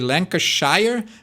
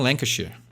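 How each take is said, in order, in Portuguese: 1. A palavra é dita com cada sílaba clara. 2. A palavra é dita com sílabas engolidas. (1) "eu falei Lancashire" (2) "tem lugares que falam Lancashire ... tu meio que mastiga tudo"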